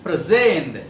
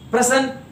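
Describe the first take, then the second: First: "present" as pre-SENT, long and falling on the end; second-syllable stress. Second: "Present" as PRE-sent, pitched high; first-syllable stress. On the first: Teacher reading verb example, second-syllable stress. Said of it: "stress will be on the second syllable". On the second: Teacher reading noun or adjective example, first-syllable stress. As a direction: say PRE-sent, punching the front. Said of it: "first syllable". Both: Shown as a demonstration.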